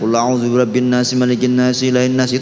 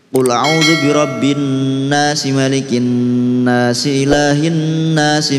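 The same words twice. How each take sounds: First: The doubled n is rushed with no nasal hum. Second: The doubled n carries a held nasal hum. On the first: The speaker calls it wrong. "dengungnya tidak ada" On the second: The speaker calls it right. "Jadi harus dua"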